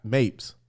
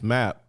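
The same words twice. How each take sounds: First: Mapes said with a long a, like "maypes"; wrong name. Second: Mapp said plainly with a short a, one syllable; the correct Mapp, said flat and short; right name. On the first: Retold or imitated. Mimicking the counselor's wrong name, Mapes with long a. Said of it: "but she said Mapp". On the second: Shown as a demonstration. Correcting the counselor's mistake, Mapp said plainly. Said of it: "she said her last name wrong".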